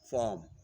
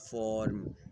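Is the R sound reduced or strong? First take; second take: reduced; strong. First: The R sound is reduced and soft. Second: The R sound is strong and full. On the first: The speaker calls it right. "press the sound of R or reduce its its sound, like form. You will pronounce this word as form" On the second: The speaker calls it wrong. "not form"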